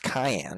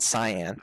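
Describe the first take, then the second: First: It is said like the spice cayenne. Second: It is said as two syllables, sigh-an. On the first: "saying it as cayenne" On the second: "It's actually pronounced cyan"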